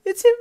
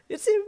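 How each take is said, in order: First: Very high, loud thrilled scream; panicked shriek. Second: High excited cry, still held back; panicked squeal. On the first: Hiding upstairs as Darby arrives, loud panicked shriek. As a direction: let the panic burst out. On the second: Hiding upstairs as Darby arrives, first panicked squeal. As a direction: gasp it out in thrilled fear. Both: Acted.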